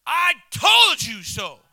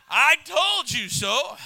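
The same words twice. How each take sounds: First: Slow, loud gloating told-you-so; Paul's told-you-so shout. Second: Slow, drawn-out smug told-you-so; a wife rubbing it in gently; wife's told-you-so. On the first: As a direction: shout it slowly, rubbing it in. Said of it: "the King James version of Paul saying". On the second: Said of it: "Usually it's my wife". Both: Retold or imitated.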